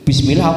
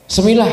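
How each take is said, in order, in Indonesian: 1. Kata ini dimulai dengan bunyi 'bis' yang jelas. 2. Kata ini dimulai dengan bunyi 'se' yang terpotong. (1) "Wong baca bismillah piye" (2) "oh kan kacau toh Pak"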